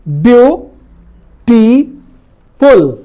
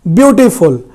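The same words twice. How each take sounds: First: "beautiful" broken into three slow, separated syllables. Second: Said in the usual way. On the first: Shown as a demonstration. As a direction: split "beautiful" up with long pauses between the syllables. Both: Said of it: "इस तरह से एक से अधिक syllable हैं".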